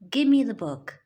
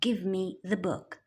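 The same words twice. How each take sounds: First: Give me is blended into one reduced word. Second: Give and me are said as separate full words. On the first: "So we say" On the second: "instead of"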